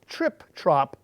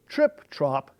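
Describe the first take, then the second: No difference in how they are said.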